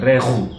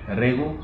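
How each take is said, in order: First: The throat consonant is pressed hard and strong. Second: The throat consonant is said softly and lightly. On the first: The speaker calls it wrong. "ketika kita tekan akan kedengaran seperti ini" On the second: The speaker calls it right. "diucapkan dengan lebih halus"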